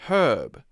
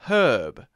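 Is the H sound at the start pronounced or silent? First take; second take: pronounced; pronounced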